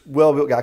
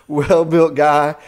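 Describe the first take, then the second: First: Said in the usual way. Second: A laugh, then "well-built guy" stretched out slowly and louder. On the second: Real, not acted. Marveling at the strong stranger, laughing. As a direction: chuckle through "well-built guy", slow and loud. Repeats phrase through a laugh.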